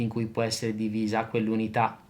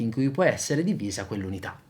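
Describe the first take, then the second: First: The pitch stays flat and monotone throughout. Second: The pitch varies in a moderate, natural way. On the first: The speaker calls it wrong. "Comincio con quello monotonale" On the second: The speaker calls it right. "Adesso faccio una cosa un po' più bilanciata"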